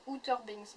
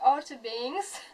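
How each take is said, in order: First: "Outer Banks" said the French way, "ou-teur banks"; "Outer Banks" in French vowels, not English; French pronunciation. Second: "Outer Banks" said slowly in an English accent. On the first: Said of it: "en français ça fait vraiment moche". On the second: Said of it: "je vais prendre un, un accent anglais". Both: Shown as a demonstration.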